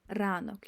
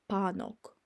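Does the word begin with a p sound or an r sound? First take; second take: r sound; p sound. First: The word begins with an r sound. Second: The word begins with a p sound. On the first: The speaker calls it right. "No, that's r" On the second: The speaker calls it wrong. "English speaking uh person could be like, oh, this is pa"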